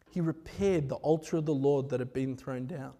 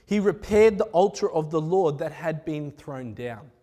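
First: Softer, lower, reflective repeat of "He repaired the altar"; quiet repeat. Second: Said in the usual way. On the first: Acted. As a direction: say it again quietly, letting it sink in. Same line repeated for weight.

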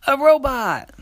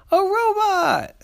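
First: High, loud, quick delighted cry; little sister voice. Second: Slow, very high amazed cry; big sister voice. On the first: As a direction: squeal it like a little girl. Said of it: "the little sister said". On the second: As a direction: draw out the delighted cry. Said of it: "the big sister said". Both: Acted.

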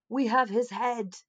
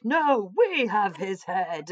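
First: Mock church claim with "have" leaned on and falling; a slow "We have his head" with "have" stressed; first church insisting, "have" stressed. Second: Very slow, louder counterclaim with "we" stressed; a slow "No, we have his head" with "we" hit hardest. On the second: Retold or imitated. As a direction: rival church insisting, "we" stressed. Rival church counters the claim.

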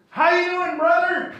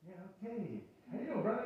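First: Booming, high welcome to a stranger; loud eager greeting. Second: Soft, unsure return greeting; a visitor meekly returning an eager welcome; hesitant reply. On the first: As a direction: greet him like a long-lost brother, loud and high. Older man greets them, hand out. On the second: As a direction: answer the greeting quietly, caught off guard. Pastor's own hesitant reply. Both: Retold or imitated.

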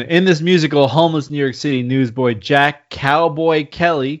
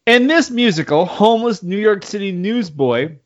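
First: Said in the usual way. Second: Talking with a drink in mouth; words through a mouthful of drink; mouth full. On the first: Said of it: "Let's do that again". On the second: Real, not acted. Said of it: "sorry, I have a drink in my mouth".

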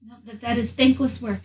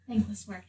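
First: Said in the usual way. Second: Soft muttered repeat; muttered echo. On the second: Acted. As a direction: mutter it to yourself. Quiet echo of own words.

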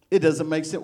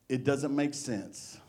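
First: Said in the usual way. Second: Softer, slow-spoken musing; quieter, slower. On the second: Shown as a demonstration. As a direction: say it quietly and drawn out.

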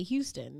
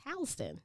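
First: "Houston" as HYOO-ston, like the Texas city; outsiders' pronunciation. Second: "Houston" as HOW-ston, starting like "house"; local Savannah pronunciation. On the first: Retold or imitated. Imitating how outsiders say "Houston": HYOO-ston. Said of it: "they say Houston". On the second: Shown as a demonstration. Correcting outsiders with Savannah's "Houston": HOW-ston. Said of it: "No, it's Houston".

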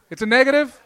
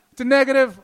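First: Louder, raised question to the crowd. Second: Louder again, falling at the end; loud repeated question. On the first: Comic shouting at the audience because he can't hear them. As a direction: call out to check what the heckler said. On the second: Comic repeating his shouted question to the crowd. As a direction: call it out once more, insisting. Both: Real, not acted. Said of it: "I can't hear shit".

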